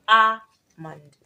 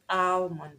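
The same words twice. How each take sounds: First: "almond" as ah-mond, long open a, no L, slow and loud; correct pronunciation. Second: "almond" with the L sounded, al-mond; wrong pronunciation. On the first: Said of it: "not almond, but almond". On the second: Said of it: "that word is not almond". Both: Shown as a demonstration.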